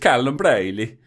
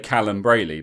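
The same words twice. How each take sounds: First: The name is said with Italian pronunciation. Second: The name is said with English pronunciation. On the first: "I think it's" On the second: "in English you'd say"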